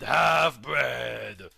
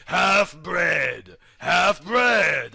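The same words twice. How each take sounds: First: Final "half-bred" yelled out, lower, falling; hammed-up villain yell; shouted insult. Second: Chanted, "Half-bred, half-bred" said firmly and a little louder, each falling; chanted, mild mock taunting; chanted insult. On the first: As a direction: spit the last one out as a shout. Last of the chanted insult.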